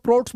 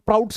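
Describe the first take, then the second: First: प्रोट्स said with a long O; प्रोट्स with one pure O vowel; variant pronunciation. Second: प्राउट्स said with an OW vowel; प्राउट्स with the vowel gliding from A to U; variant pronunciation. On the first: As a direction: say प्रोट्स to rhyme with "oats". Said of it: "बहुत सारे लोग प्रोट्स बोलते हैं". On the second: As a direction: say प्राउट्स to rhyme with "shouts". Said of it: "बहुत सारे लोग प्राउट्स classification बोलते हैं". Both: Shown as a demonstration.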